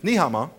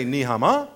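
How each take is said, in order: First: "Ni hao ma" said as a statement, ending downward; greeting tune on "Ni hao ma". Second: "Ni hao ma" swung upward at the end; wrong rising tune. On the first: Comic showing the right Chinese greeting, "Ni hao ma" falling. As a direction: let "Ni hao ma" fall at the end. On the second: Comic showing the mistaken greeting, "Ni hao ma" rising. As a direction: lift the end of "Ni hao ma" like a question. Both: Shown as a demonstration. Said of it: "If you go up with an accent when you're supposed to go down".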